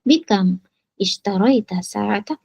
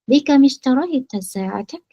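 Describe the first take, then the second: First: The first two words are kept separate. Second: The first two words are linked with an i. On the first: The speaker calls it wrong. "itu benar. Namun kurang fasih" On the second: The speaker calls it right. "diwasolkan, diteruskan"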